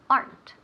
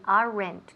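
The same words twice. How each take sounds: First: The word is said with one syllable. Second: The word is said with two syllables. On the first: The speaker calls it right. "We want aren't. Una sílaba" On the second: The speaker calls it wrong. "we never say aren't ni aren't. Nunca. Eso sería typical Spanish"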